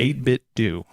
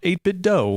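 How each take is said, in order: First: The last word rhymes with 'too'. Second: The last word rhymes with 'go'. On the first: The speaker calls it right. "It's eight-Bit Do" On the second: The speaker calls it wrong. "Not eight-Bit Dough"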